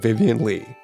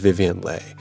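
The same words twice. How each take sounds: First: The surname rhymes with see. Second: The surname rhymes with day. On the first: This is the American way to say the name. "for 2 years, I've been saying your name" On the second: This is the traditional Vietnamese way to say the name. "now I credited you"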